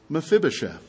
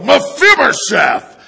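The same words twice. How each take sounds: First: The name is said gently, without anger. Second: The name is said angrily, like a threat.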